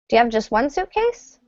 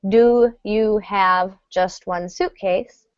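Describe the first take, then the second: First: "Do you have" blends into almost one syllable. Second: Each word of "do you have" is said clearly. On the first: The speaker calls it right. "it's almost one syllable" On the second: The speaker calls it wrong. "We don't say"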